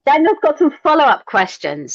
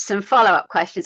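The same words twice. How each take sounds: First: High, loud gleeful emphasis on some; excited repeat. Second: Said in the usual way. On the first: Real, not acted. Excitedly echoing the host about Daniel's questions, high and loud. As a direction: jump in and punch the line up high and loud.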